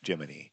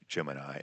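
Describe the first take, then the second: First: The word ends with an 'ee' sound. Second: The word ends with an 'eye' sound. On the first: This was a deliberate local variant used as a check. "they deliberately mispronounced a particular word, Gemini, as Jiminy" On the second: This is the usual way to say the word. "a particular word"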